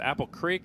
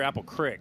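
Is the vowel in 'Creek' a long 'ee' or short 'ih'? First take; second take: long ee; short ih. First: Creek is said with a long 'ee' vowel. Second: Creek is said with a short 'ih' vowel. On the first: "Is it Apple Creek" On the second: "if you're from Western P A, it's Crick"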